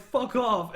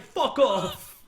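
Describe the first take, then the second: First: Loud, high New Yorker brush-off; mock New Yorker accent. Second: Loud, high mock-British yell; attempted British accent. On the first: Redo of New Yorkers cursing at hell, loud mock New York accent. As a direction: yell it like an annoyed New Yorker. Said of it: "but they're just like". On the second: New Yorker cursing at hell, accidentally British-accented shout. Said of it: "I don't know why I did the British one".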